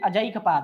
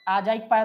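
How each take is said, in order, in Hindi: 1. पहला स्वर छोटा ही बोला जाता है। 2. पहला स्वर खींचकर लंबा बोला जाता है। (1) "अजैक पाद है" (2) "आजैक पाद नहीं"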